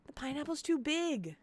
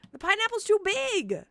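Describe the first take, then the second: First: Softer, deflated repeat of a playful complaint; subdued mock whine. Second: High-pitched, hammed-up whine at full voice; mock wailing protest. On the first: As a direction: whine it softly, a little high, giving up. Same protest repeated, subdued. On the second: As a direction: wail it in playful despair. Wailed protest, then repeated softer.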